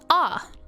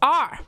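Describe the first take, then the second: First: The R is said in an English accent. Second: The R is said in a Scottish accent. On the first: "So you've got ah for English" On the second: "And then you've got Scottish, which is R"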